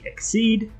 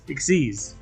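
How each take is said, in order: First: It is said as one word without final s. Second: It is said as one word ending in s. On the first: The speaker calls it wrong. "or some saying Exceed" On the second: The speaker calls it right. "the proper pronunciation is Exceeds"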